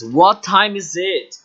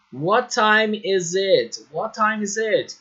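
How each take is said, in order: First: Slow model question. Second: What time is it drawn out, each word clear; slow model question. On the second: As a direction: teach the question slowly. (pergunta modelo lenta e clara) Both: Shown as a demonstration. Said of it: "a frase que deve ser usada".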